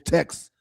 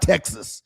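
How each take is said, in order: First: The word is said with one syllable. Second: The word is said with two syllables. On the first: The speaker calls it right. "It's text because that's plural" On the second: The speaker calls it wrong. "it's not Texas"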